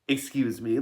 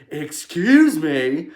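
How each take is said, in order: First: It sounds like a plain, polite request. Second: It sounds indignant, demanding an apology.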